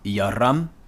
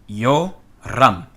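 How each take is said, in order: First: The first vowel is an 'a' sound. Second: The first vowel is a long 'o' sound. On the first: The speaker calls it wrong. "and not" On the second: The speaker calls it right. "This is not a short O"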